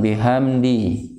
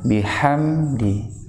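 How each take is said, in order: First: The h is a plain, light breath. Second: The h is a tight, throaty sound. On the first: The speaker calls it wrong. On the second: The speaker calls it right.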